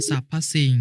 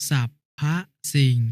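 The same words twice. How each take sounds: First: Said in the usual way. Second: สรรพ as "sap-pha", pause, สิ่ง; syllable-by-syllable reading. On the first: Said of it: "คำว่า". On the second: Shown as a demonstration. Brother showing the final consonant, syllable by syllable: สรรพ สิ่ง. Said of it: "อ่านว่า".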